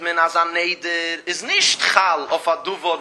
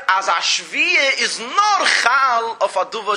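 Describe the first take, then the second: First: Nicht pressed in a falling tune; man, als ein Neder ist nicht Chal, lean on nicht; stress on nicht. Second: Nur lifted, slow and loud; slow down and lift nur as the reverse rule; stress on nur. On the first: Teacher reads the Gemara's rule, stressing nicht. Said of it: "steht pink verkehrt". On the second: Teacher contrasts the Säura Kudish wording, slow stress on nur. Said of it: "Pink verkehrt". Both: Shown as a demonstration.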